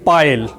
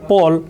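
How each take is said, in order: First: The vowel sounds like the one in 'eye'. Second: The vowel sounds like the one in 'all'. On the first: The speaker calls it wrong. "the mentioned teacher uttering the word Paul, pile" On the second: The speaker calls it right. "the word Paul"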